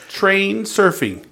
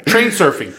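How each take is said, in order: First: "Train surfing" drawn out slowly, each word weighted; slow emphatic. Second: Said in the usual way. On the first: Shown as a demonstration.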